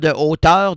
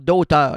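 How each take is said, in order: First: The word de is said in full. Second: The word de is elided into auteur. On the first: The speaker calls it wrong. "Pas de auteur" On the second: The speaker calls it right.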